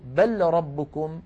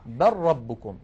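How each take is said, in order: First: بل ربكم said slowly with a clear separate lam, bel rabbukum; wrong unassimilated take. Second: بل ربكم as barrabbukum, the lam turned into a doubled ra; correct merged take. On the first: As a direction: spell out بل with its lam, don't merge. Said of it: "فلا نقول". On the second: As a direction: merge بل into ربكم, a lower pitch. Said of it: "بل نقول". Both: Shown as a demonstration.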